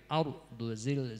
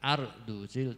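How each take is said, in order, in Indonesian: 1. R-nya tebal, dengan bibir sedikit membulat. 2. R-nya tipis, tanpa bibir yang membulat. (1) "tapi ar duzil" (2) "Jangan ar duzil"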